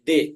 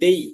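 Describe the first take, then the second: First: The vowel is a plain short 'e' sound. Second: The vowel glides from 'e' toward 'ee'. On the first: The speaker calls it wrong. "এই দে হবে না" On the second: The speaker calls it right. "এটা হবে দেই"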